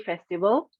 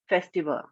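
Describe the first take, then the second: First: The final L sound is clearly heard. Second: The final L sound is barely heard. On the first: The speaker calls it right. "with an L" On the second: The speaker calls it wrong. "you don't sound good"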